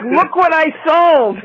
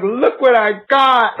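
First: High, slow gleeful cry; mock excited squeal. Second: High, slow, thrilled cry; excited squeal. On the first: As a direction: echo it as the proud seller. Mirrors the line as seller. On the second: Retold or imitated. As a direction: squeal it like a great find. Excitedly showing off a find.

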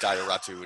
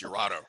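First: Ioratu said "eye-or-AH-too"; mistaken pronunciation. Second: Iurato said "your-AH-to"; corrected pronunciation. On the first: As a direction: open Ioratu on a long "eye". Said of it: "I liked Ioratu until he said". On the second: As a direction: open Iurato on a "your" sound. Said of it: "he said it's Iurato". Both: Shown as a demonstration.

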